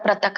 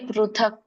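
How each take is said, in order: First: The first syllable is said with a 'ra' sound. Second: The first syllable is said with a 'ru' sound. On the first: The speaker calls it wrong. "ಪ್ರಥಕ್ ಪ್ರಥಕ್ ಅನ್ನಂಗಿಲ್ಲ ಅಲ್ಲಿ" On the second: The speaker calls it right. "ಪ್ರೂ ಪ್ರೂ ಅಂತ ಹೇಳ್ಬೇಕು"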